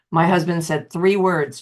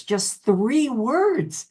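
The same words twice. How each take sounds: First: Said in the usual way. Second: "just three words" drawn out very slowly, pitched higher; slow emphatic repeat. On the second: Real, not acted. Echoing her husband's three words, slow and pointed. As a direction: linger on "words", letting each one land.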